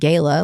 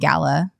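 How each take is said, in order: First: It uses the Texas pronunciation. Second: It uses the pronunciation common outside Texas. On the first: This is how it is said in Texas. The speaker calls it wrong. "not gala, like I was saying it" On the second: This is how people say it outside Texas. The speaker calls it right. "if you're around people saying gala"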